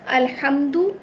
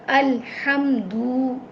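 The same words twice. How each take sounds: First: The final vowel is short. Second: The final vowel is stretched long. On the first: The speaker calls it right. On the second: The speaker calls it wrong.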